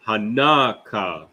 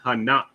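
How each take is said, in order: First: Hanaka slowly as ha-NA-ka; full pronunciation. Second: Hanak clipped to two syllables, ha-NAK; mistaken run-together form. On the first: Teacher modelling the word, Hanaka in full, slow syllables. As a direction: draw out Hanaka with a separate final ka. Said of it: "it's not Hanak". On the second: Teacher citing the old mistake, Hanak run together. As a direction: close Hanak on the k, no final vowel. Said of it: "pronouncing the last two characters together". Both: Shown as a demonstration.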